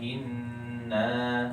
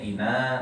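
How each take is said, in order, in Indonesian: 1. Huruf n yang digandakan ditahan dengan dengung sengau. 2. Huruf n pendek dan tunggal, tidak digandakan. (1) "harusnya bacanya inna" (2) "Kecuali bacanya ina, nah itu beda lagi"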